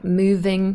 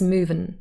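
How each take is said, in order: First: The word ends with an 'ng' sound. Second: The word ends with a plain 'n' sound.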